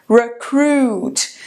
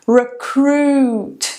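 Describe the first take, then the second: Both takes have the same delivery.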